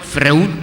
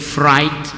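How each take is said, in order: First: The name sounds like a word for fruit. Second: The name does not sound like fruit. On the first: The speaker calls it wrong. "Freud kayak, kayak buah-buahan" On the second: The speaker calls it right. "Saya tahu bahwa itu dibaca dengan Freud"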